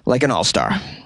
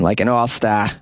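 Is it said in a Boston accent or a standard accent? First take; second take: standard; Boston. First: It is said in a standard American accent. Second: It is said in a Boston accent.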